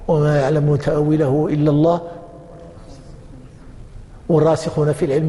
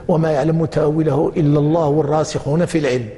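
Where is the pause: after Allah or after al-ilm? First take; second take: after Allah; after al-ilm. First: The pause comes right after the word Allah. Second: The pause comes right after the word al-ilm. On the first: Only God knows its interpretation. "إذا وقفت في الأول" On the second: Those firm in knowledge also know its interpretation. "أو وقفت في الثاني"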